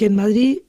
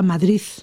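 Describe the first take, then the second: First: The word ends in a d sound. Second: The word ends in a th sound. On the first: This is the standard pronunciation. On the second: This is the regional pronunciation typical of Madrid.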